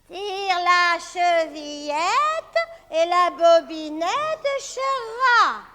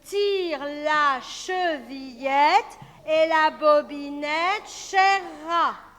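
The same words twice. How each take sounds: First: It is said in an old grandmother's voice. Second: It is said in a normal voice.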